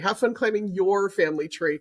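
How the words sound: The stress is on the word your.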